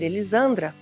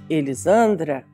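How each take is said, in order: First: The name is said at a higher pitch. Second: The name is said at a lower pitch. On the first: "o tom já subiu" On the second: "o tom já baixou"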